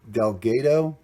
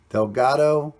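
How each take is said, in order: First: Delgado with a long "ay", del-GAY-doh. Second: Delgado with an open "ah", del-GAH-doh. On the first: Coin hunter offering another guess at the name, Delgado said del-GAY-doh. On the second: Coin hunter unsure of the name on the coin, Delgado said del-GAH-doh. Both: Shown as a demonstration. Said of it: "not sure if I'm pronouncing that correctly".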